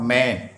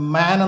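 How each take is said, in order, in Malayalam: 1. ഈ സ്വരം 'ay' പോലെയാണ് കേൾക്കുന്നത്. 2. ഈ സ്വരം നീണ്ട 'ah' പോലെയാണ് കേൾക്കുന്നത്. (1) "നോട്ട് മേൻ" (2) "മാൻ എന്നാണ് പറയേണ്ടത്"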